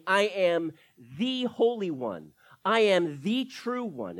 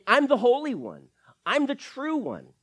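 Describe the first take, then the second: First: Slow, weighty, every word set apart; solemn declaration. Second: Louder, higher, "Holy" and "true" hit hard; emphatic declaration. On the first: Preacher voicing Jesus's claim, slow and weighty. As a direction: lay down "Holy" and "true" slowly and firmly. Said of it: "he is really saying". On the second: Preacher voicing Jesus's claim, loud and emphatic. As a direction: proclaim "Holy" and "true" with force. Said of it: "Jesus is saying". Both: Shown as a demonstration.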